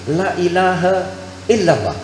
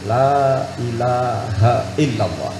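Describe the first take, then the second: First: The vowel in the first word is short. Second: The vowel in the first word is long. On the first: The meaning is reversed. The speaker calls it wrong. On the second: There is no god but God. The speaker calls it right.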